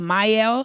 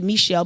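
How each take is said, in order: First: The name is said like mee-el. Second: The name is said like Michelle. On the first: This is how the speaker thinks it is said. The speaker calls it right. "but I think it's Miel" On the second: This is how most people say it. The speaker calls it wrong. "Most people say Michelle"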